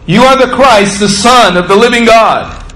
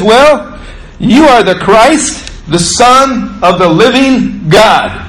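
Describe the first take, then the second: First: "are" hit hard, sure falling close; firm confession. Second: Slow, stress on you, rising as if unsure; "you" leaned on, slowed, ending like a question; Peter's hesitant confession. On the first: Preacher restates Peter's words to the congregation, firm with stress on are. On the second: Peter answers Jesus, slow and tentative, stressing you. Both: Retold or imitated.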